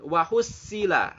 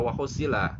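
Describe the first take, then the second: First: WA HUSSILA with a thin, light S; sad read as sin. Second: WA HUSSILA lower, with a heavy emphatic S; correct heavy sad. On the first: Teacher shows learners the mistake, sad flattened into sin. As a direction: say HUSSILA wrongly with a plain S. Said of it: "nggak boleh dibaca seperti sin". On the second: Teacher corrects the wrong reading, full sad sound. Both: Shown as a demonstration.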